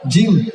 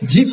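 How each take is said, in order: First: The word ends with an m sound. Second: The word ends with a p sound. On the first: The speaker calls it right. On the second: The speaker calls it wrong.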